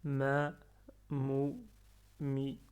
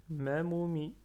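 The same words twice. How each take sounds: First: "ma, mou, mi" with a pause after each syllable. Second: Said in the usual way. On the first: Shown as a demonstration. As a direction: break it up: ma... mou... mi. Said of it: "Ne pas lire". (syllabes séparées par des pauses, « ma, mou, mi ») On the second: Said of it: "en un seul souffle".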